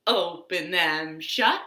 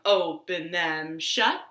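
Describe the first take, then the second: No difference in how they are said.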